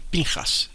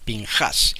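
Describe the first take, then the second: First: The stress is on the first syllable. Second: The stress is on the second syllable. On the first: "algunos judíos dicen Pinjas. Ahora, que porque le cambian el acento" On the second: This is how it is stressed in the Bible. "El acento en la Biblia está en la A"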